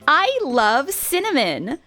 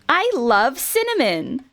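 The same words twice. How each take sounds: First: An extra 'nuh' sound trails after 'cinnamon'. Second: 'Cinnamon' ends cleanly with no extra sound. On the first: The speaker calls it wrong. "there was a bit of a "nuh" at the end of the cinnamon" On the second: The speaker calls it right. "it would just say cinnamon"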